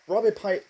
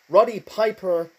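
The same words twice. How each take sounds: First: "Roddy Piper" fumbled as "Robby Pipe"; name slip. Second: Said in the usual way. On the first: Real, not acted. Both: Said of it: "sorry, Roddy Piper".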